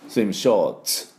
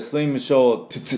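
First: The final t and s blend into one sound. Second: The final t is sounded as a separate syllable. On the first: The speaker calls it right. "t とs がダブった音" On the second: The speaker calls it wrong. "swim short t って言いませんね"

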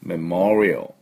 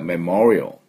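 First: The word is said with two syllables. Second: The word is said with two syllables.

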